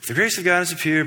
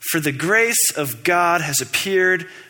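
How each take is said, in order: First: The word grace is not emphasized. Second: The word grace is emphasized.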